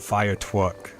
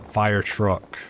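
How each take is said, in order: First: The R sounds are said like W. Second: The R sounds are said as clear R. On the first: The speaker calls it wrong. "I would say the W's with the R's" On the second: The speaker calls it right.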